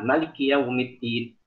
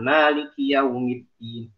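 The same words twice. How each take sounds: First: The vowel after the m is short. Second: The vowel after the m is long. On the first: "membaca dengan tidak mematkan mim" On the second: "lewat Hafs"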